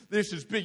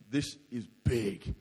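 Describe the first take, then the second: First: Said in the usual way. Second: Low, slow, soft uh-oh; scared realisation. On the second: Retold or imitated. Surfer out in six-metre waves, low and slow in fear. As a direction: let the fear sink in quietly.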